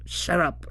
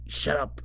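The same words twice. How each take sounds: First: "shut up" whispered, breathy and urgent. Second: Softly telling them to shut up; a hushed, urgent warning; quietly hushing a friend. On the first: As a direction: hiss the words out without voice. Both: Retold or imitated. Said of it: "Sabi and I think Hotaru too was like".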